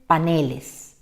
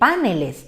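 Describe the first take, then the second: First: The stress is on the second syllable. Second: The stress is on the first syllable. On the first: The speaker calls it right. "tendría que pronunciarse paneles" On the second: The speaker calls it wrong. "una tilde en la A y por tanto ahí dice paneles"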